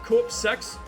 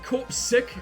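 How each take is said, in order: First: The second syllable sounds like 'sex'. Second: The second syllable sounds like 'sick'. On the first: This is how the speaker expected it. "instead of corpse sex" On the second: This is how the game says it. "they pronounce it corpse sick"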